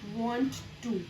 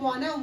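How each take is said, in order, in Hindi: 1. दोनों शब्द पूरे और अलग-अलग बोले जाते हैं। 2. दोनों शब्द मिलकर एक संक्षिप्त शब्द बन जाते हैं। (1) "वांट टू इसकी प्लेस पर यूज होता है" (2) "ये जो वाना वर्ड है"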